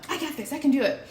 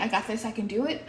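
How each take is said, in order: First: Confident I got this. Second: Said in the usual way. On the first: Retold or imitated. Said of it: "And I'm like". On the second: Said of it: "while I'm saying".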